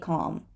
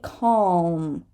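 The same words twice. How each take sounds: First: No L sound is pronounced. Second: A dark L sound is pronounced.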